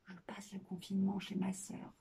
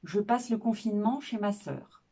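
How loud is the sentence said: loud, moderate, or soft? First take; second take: soft; loud. First: The sentence is said softly. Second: The sentence is said loudly. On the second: "dite forte"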